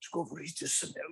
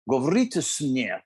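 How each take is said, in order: First: It is said in a breathless whisper. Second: It is said in a full, clear voice.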